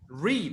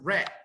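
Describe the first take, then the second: First: The vowel is long, rhyming with need. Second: The vowel is short, rhyming with bed. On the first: It is the present tense. "And the present" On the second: It is the past tense. "pronunciation is like the color"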